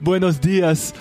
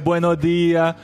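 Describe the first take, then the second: First: The final s sounds are clearly pronounced. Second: The final s sounds are dropped. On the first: It marks the speaker as a foreigner. "por que que ele tá falando tanto S?" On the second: This is how the locals speak. "Eles não falam S por nada"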